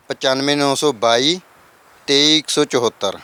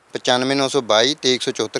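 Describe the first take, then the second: First: Slow digit-by-digit phone number; dictating the number slowly; slow dictation. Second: Said in the usual way. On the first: Shown as a demonstration. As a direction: read ਪਚਾਨਵੇਂ ਨੌ ਸੌ ਬਾਈ slowly so viewers can note it. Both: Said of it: "repeated number".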